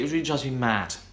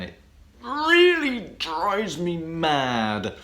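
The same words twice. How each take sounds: First: The final sound is a voiceless t. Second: The final sound is a voiced d.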